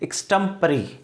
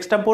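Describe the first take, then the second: First: The word ends with an 'ee' sound. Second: The word ends with an 'or' sound. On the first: The speaker calls it right. "इसका pronunciation होता है एक्सटेम्परी" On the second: The speaker calls it wrong. "कई लोग इसको एक्सटेम्पोर एक्सटेम्पोर बोलते हैं, एक्सटेम्पोर नहीं बोलते हैं"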